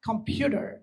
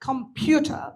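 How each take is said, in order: First: It is said with an American accent. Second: It is said with a non-American accent. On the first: "American কম্পিউটার" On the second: "উচ্চারণ হচ্ছে কম্পিউটার"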